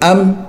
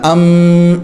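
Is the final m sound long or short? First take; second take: short; long. First: The final m stops short. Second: The final m is held long. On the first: The speaker calls it right. "मीम बंद हो जाए" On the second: The speaker calls it wrong. "मीम को लंबा नहीं करना, अम इस तरह नहीं करना"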